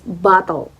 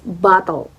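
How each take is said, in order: First: It is said in an American accent. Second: The same.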